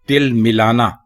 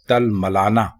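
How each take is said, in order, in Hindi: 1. पहले दो स्वर 'i' की आवाज़ें हैं। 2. पहले दो स्वर 'a' की आवाज़ें हैं। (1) "ये गलत है" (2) "ते के ऊपर भी जबर है और मीम के ऊपर भी जबर है"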